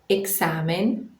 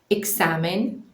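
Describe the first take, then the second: The two takes are said the same way.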